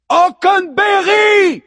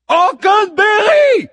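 First: Huge high shout, drawn out; goddess shout. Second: High, booming, drawn-out yell; impatient goddess shout. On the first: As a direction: bellow the name like a goddess. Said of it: "hurle-t-elle de sa puissante voix de déesse". (hurlement puissant de déesse) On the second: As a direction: bellow the name impatiently. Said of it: "répète la muse impatiente". (cri impatient de la muse) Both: A narrator's reading.

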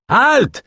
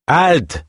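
First: Very high, piercing command; shouted halt. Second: Sharp high command to stop; guard's shout. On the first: Guard yells after the escaping pair, piercing shout. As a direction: yell it after them at full stretch. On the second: Guard calls out to the fleeing pair, sharp shout. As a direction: bark the order across the hall. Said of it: "une voix les apostropha". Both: A narrator's reading.

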